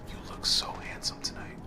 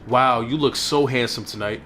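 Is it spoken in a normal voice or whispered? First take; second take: whispered; normal. First: It is said in a whisper. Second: It is said in a normal speaking voice.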